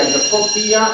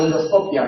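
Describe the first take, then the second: First: "endoscopia" as endosco-PÍ-a; long stressed I in "endoscopia". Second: "endoscopia" as en-DOS-CO-pia, light ending; "endoscopia" with unstressed "pia"; stress on DOS. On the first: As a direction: split the ending of "endoscopia", hitting the I. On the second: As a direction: keep the final "pia" of "endoscopia" short. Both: Shown as a demonstration. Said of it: "lo mismo".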